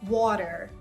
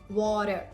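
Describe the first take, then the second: The two takes are said the same way.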